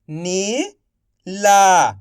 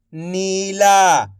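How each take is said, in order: First: Slow stretched reading. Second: Said in the usual way. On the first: Shown as a demonstration. Teacher to pupils, slowly stretched. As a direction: draw Neela out slowly. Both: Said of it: "आप इस तरीके से".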